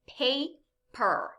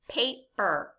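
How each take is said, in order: First: The syllables are said apart with a pause. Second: The syllables are blended into one quick word. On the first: "Listen to these syllables" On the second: "Let's say them a little bit faster"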